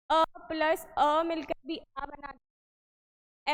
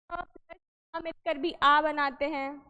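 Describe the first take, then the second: First: Slow, drawn-out teacher repeat of अ plus अ. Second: Said in the usual way. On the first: Shown as a demonstration. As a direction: spell it out slowly so students follow. (धीरे धीरे समझाते हुए दोहराना)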